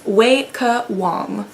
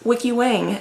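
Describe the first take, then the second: First: The name is said the Chinese way. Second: The name is said the common English way. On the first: The speaker calls it right. "That's how you say that name" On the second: The speaker calls it wrong. "It is not Wiki Wang, as I've heard most people pronounce it"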